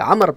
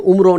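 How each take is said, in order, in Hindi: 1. नाम बिना किसी अंतिम स्वर के खत्म होता है। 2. नाम 'o' स्वर पर खत्म होता है। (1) "अमर पढ़ेंगे" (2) "वाओ नहीं पढ़ेंगे, उमरो नहीं पढ़ेंगे"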